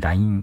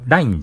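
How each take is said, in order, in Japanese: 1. ピッチは下がらず、平らなままです。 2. ピッチが下がるところ（アクセント核）があります。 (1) "そのアクセントを平たくすることで" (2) "LINE じゃなくて"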